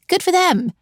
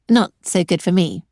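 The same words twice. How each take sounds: First: Good jumps way up, then falls; mock congratulations, dripping sarcasm; sarcastic. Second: Said in the usual way. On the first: Sarcastic jab at young entrepreneurs.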